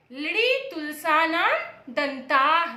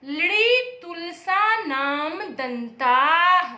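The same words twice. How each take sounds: First: Teacher repeating the sutra slowly; slow recitation. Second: Drawn-out sutra chant, a bit louder; teacher chanting the sutra slowly; very slow recitation. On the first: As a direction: recite लृड़ी तुलसा नाम दंताः slowly again. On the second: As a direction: chant लृड़ी तुलसा नाम दंताः very slowly. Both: Shown as a demonstration. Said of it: "कौन सा सूत्र है".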